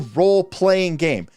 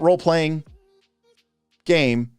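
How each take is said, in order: First: The phrase is said as one smooth unit. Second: The phrase is broken into separate words. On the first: The speaker calls it right. "One word" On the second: The speaker calls it wrong. "not role-playing game"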